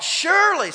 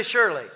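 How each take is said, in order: First: "surely" lifted high and pressed hard, falling at the end; emphatic surely. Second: Said in the usual way. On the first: Shown as a demonstration. Preacher modeling the word for the church, high emphatic "surely". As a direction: hit "surely" up high then drop it. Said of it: "somebody say, "Surely". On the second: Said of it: "somebody say".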